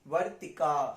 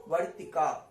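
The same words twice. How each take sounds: First: The final vowel is drawn out long. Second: The same.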